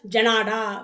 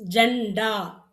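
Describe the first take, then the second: First: "ஜனாடா" in three beats with an open naa in the middle; full naa, wrong reading. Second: "ஜண்டா" in two beats, n closed straight onto daa; half n, no vowel. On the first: Teacher warning what comes out otherwise, "ஜனாடா" with full middle naa. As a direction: say "ஜனாடா" with a long vowel after n. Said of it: "இல்லைன்னா ஜனாடா வரும்". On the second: Teacher showing the half letter, "ஜண்டா" with closed n. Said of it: "இன்னுன்னு உச்சரிக்கணும்". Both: Shown as a demonstration.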